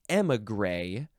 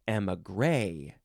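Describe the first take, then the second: First: The stress is on the first syllable. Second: The stress is on the last syllable. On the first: "Emphasize the first or the last syllable" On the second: "Emphasize the first or the last syllable"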